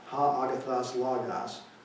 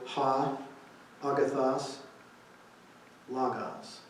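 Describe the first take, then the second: First: The phrase is spoken at a normal pace. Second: The phrase is spoken at a slower pace.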